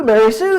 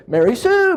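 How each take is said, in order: First: Louder, firmer repeat of the name; louder call. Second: High, sing-song call of her name. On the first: Caregiver repeats the resident's name, louder and firmer. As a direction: call her again so she hears you. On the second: Caregiver calls a resident to the sink, high sing-song call. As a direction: call her over brightly from across the room. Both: Pretend.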